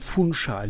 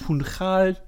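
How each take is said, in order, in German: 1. Das 'ch' wird als 'sh'-Laut ausgesprochen. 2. Das 'ch' wird mit einem Nicht-'sh'-Laut ausgesprochen. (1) "spricht man mit SCH aus. Also Funchal" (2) "nicht Funchal"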